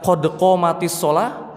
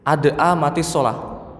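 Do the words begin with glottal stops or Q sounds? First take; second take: Q sounds; glottal stops. First: The words begin with deep Q sounds. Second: The words begin with glottal stops. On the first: The speaker calls it right. "yang harusnya" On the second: The speaker calls it wrong.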